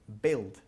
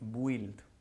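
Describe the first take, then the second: First: Only a plain 'i' vowel, no 'u'. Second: A 'u' sound comes before the 'i'. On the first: The speaker calls it right. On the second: The speaker calls it wrong. "Hay una tendencia aquí en España de decir build. ¿Ok? Lo cual es, no es cierto"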